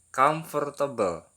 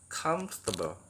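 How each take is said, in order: First: The word is said with four syllables. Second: The word is said with three syllables. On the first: The speaker calls it wrong. "Mungkin banyak sekali yang mengira ini diucapkannya empat kali ya" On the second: The speaker calls it right. "Pengucapan yang benar itu adalah comfortable"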